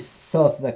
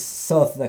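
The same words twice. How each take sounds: First: It is pronounced the way Londoners say it. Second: It is pronounced the way Londoners say it.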